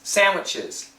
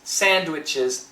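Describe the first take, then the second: First: The D is dropped, sounding almost like an M. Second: The D is pronounced clearly. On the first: "Almost with an M" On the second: "her pronunciation is very clear"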